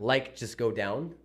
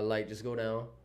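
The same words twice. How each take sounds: First: The final sounds of the words are pronounced. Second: The final sounds of the words are dropped. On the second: "they say uh"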